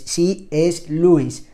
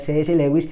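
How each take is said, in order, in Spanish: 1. El nombre se pronuncia con sonidos ingleses. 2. El nombre se pronuncia con sonidos españoles. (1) "así se pronuncia como en el inglés" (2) "que era como yo decía"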